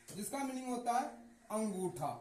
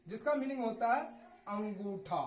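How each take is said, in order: Both takes have the same delivery.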